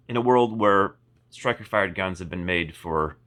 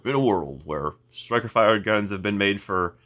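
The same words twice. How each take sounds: First: Slow dramatic trailer narrator; movie trailer voice. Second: Said in the usual way. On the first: Shown as a demonstration. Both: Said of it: "sounded like a, like a movie trailer".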